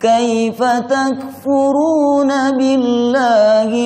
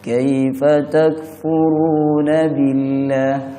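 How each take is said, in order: First: It is recited with strong, sharp emphasis. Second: It is recited plainly, without sharp emphasis. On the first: It is a stern rebuke. The speaker calls it right. "harus ditekan atau dikejut supaya sinkron dengan maknanya" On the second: It sounds like an ordinary question. The speaker calls it wrong. "kurang pas dengan maknanya"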